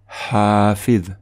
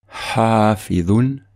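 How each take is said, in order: First: The word is said in its shortened pausal form. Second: The word is said in its full connected form. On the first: The reciter stops after this word. "comme si on faisait une pause" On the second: The reciter continues into the next word. "sans faire de pause"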